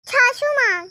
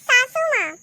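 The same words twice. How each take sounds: First: "छाछू माँ" with chh in place of s; lisped try. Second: "सासू माँ" with crisp s sounds; husband teaching the right word; clear correction. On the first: Acted. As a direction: lisp "छाछू" as chhaa-chhoo. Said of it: "तोतली बहू". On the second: Shown as a demonstration. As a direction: say "सासू" with a clean s, firmly. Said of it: "छाछू माँ नहीं".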